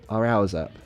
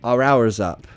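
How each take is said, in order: First: The word 'is' is contracted onto 'hour'. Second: The word 'is' is said in full. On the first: The speaker calls it right. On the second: The speaker calls it wrong.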